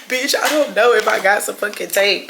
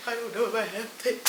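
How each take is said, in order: First: Said in the usual way. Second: Very soft, fast self-talk; muttered under the breath; muttering to herself. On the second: Real, not acted. Muttering then repeating it aloud.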